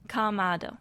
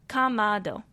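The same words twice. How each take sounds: The two takes are said the same way.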